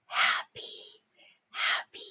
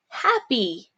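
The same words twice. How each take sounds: First: Soft breathy whisper of the word. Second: Said in the usual way. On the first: Shown as a demonstration. Teacher whispering the dictation word to the class. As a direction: whisper it like a secret. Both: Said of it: "dictation drill, word repeated".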